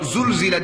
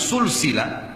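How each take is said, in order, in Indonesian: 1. Ada bunyi z yang bergetar. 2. Ada bunyi s yang mendesis. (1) "bergetar lidahnya" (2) "pakai sin"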